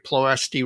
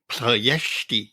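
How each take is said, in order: First: The stress is not on the second syllable. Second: The stress is on the second syllable. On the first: The speaker calls it wrong. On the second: The speaker calls it right.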